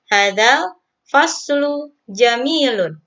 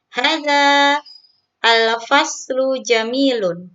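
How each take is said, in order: First: Hadza runs straight into the article as hadzal. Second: Hadza and al are said as separate words. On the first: "boleh juga seperti ini" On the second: "Boleh dibaca seperti itu"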